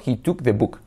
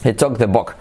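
First: "took" and "book" with a Spanish U, like "tuk", "buk". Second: "took" and "book" close to "tok", "bok"; O-like short vowel. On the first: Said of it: "los hispanos solemos hacer una U". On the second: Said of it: "como una O". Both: Shown as a demonstration.

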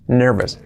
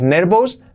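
First: "nervous" as NER-ves, falling; short "-es" at the end of "nervous"; correct pronunciation. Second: "nervous" as rising NER-bous; Spanish b and "ous" in "nervous"; wrong pronunciation. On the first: Teacher gives the correction: "nervous" as NER-ves. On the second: Teacher warns learners off this: "nervous" as NER-bous. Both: Shown as a demonstration. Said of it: "ya no digáis nervous".

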